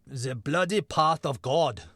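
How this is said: It is said with a put-on German accent. "German accent"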